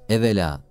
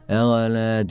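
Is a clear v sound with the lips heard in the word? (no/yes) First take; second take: yes; no. First: The v sound is clearly made with the lips. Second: The v sound is dropped, with no lip contact. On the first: The speaker calls it right. "Ama evvela deniliyor galiba orada" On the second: The speaker calls it wrong. "V'deki dudak hiçbir şekilde eğilmedi"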